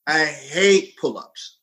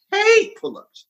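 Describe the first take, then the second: First: "hate" drawn out slowly at usual pitch; stress on hate. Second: "hate" leaping up very high; high-pitched HATE. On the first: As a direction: stretch out "hate" with slow emphasis. Emphatic list of hated exercises. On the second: Repeats hatred at far higher pitch. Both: Retold or imitated.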